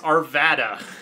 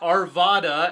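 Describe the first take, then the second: First: The name is said the Colorado local way. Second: The name is said the way Californians say it. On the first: The local pronunciation. The speaker calls it right. "It's Arvada" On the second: An outsider's pronunciation. The speaker calls it wrong. "It's not Arvada, as many Californians think"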